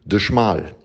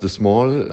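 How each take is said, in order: First: The second word begins with a 'sh' sound. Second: The second word begins with a plain 's' sound. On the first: It is the German word for narrow. The speaker calls it right. "Also kommt das aus dem Rheinischen" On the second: It is read as the English word for little. The speaker calls it wrong. "Du sagst The Small"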